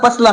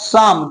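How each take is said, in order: First: The P and L sounds are pronounced. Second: The P and L sounds are silent. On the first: The speaker calls it wrong. "इसे क्या पढ़ता पसलम" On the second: The speaker calls it right. "लेकिन इसका real pronunciation क्या होगा"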